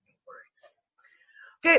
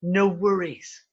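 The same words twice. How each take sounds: First: Very slow, airy whisper; drawn-out whisper. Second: Said in the usual way. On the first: Real, not acted. Host signing off to listeners, slow playful whisper. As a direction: whisper it, stretching out each word.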